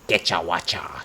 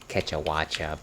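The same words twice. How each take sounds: First: It is said in a thick Spanish accent. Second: It is said in a plain, neutral accent.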